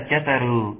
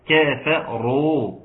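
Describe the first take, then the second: First: Second "كفروا" slurred together with short early syllables; wrong run-together reading. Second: "كفروا" slow, each consonant distinct, light k and f; correct separated syllables. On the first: Teacher shows what not to say, "كفروا" loosely run together. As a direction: rush through the first syllables of "كفروا". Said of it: "كفروا لا". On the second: Teacher models correct reading, "كفروا" slow and distinctly syllabled. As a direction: give every letter of "كفروا" its full, clean sound. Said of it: "كفروا وليس كفروا". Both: Shown as a demonstration.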